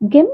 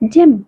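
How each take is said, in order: First: The word begins with a hard G sound. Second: The word begins with a J sound. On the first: The speaker calls it wrong. "ಗೆಮ್ ಅನ್ಬಾರ್ದು, ಅದು ತಪ್ಪಾಗುತ್ತೆ" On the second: The speaker calls it right. "ಜ ಅಂತ pronounce ಮಾಡಬೇಕು"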